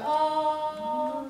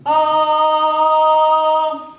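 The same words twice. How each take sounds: First: The sound is weak and carries only nearby. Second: The sound is projected strongly across the room. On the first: The voice reaches only a short distance. The speaker calls it wrong. "as opposed to ah, ah brings you about to here" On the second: The voice reaches the whole room without shouting. The speaker calls it right. "You have to go"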